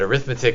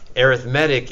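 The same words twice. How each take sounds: First: It is pronounced as the noun form. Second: It is pronounced as the adjective form. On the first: It names the math you do. "arithmetic is what you do" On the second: It describes a type of sequence. "Arithmetic is the adjective"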